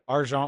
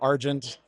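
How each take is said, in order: First: The word is said with a French pronunciation. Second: The word is said with an American pronunciation.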